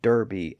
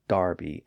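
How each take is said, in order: First: The first vowel sounds like 'er' with an R. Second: The first vowel sounds like 'ar' with an R. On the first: "Americans call Derby" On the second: "Brits call Darby"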